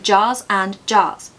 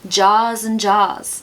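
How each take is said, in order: First: No smooth z link; the words sound separated. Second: A smooth z sound links 'jars' into 'and'. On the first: The speaker calls it wrong. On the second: The speaker calls it right.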